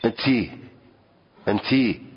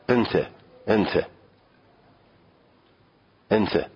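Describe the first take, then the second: First: انتی with a final i, addressing a sister; انتی ending on a long i; Arabic demo. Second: انت with a short a ending, addressing a brother; انت ending on a clipped a; Arabic demo. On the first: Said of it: "به خواهرش که میگه". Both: Shown as a demonstration.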